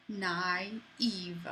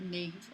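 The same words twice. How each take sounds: First: "naive" in two syllables, "nah-EEV"; separated vowels. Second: "naive" mushed into one syllable, "nave"; without the tréma. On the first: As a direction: split "naive" so both A and I sound. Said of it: "you need to pronounce two vowels separately". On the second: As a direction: say "naive" wrongly as "nave", I not sounded. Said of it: "If without that, it would just be". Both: Shown as a demonstration.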